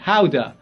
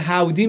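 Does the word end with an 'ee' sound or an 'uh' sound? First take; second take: uh; ee. First: The word ends with an 'uh' sound. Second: The word ends with an 'ee' sound.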